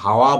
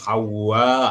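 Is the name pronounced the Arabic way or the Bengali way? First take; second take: Bengali; Arabic. First: The name is said with Bengali pronunciation. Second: The name is said with Arabic pronunciation. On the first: The speaker calls it wrong. "আমরা হাওয়া বলি।" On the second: The speaker calls it right. "শব্দ হবে হাওয়া"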